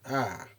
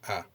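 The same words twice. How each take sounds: First: The pitch falls across the vowel. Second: The pitch stays low and level. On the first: "the decreasing intonation" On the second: "it indicates low intonation as here"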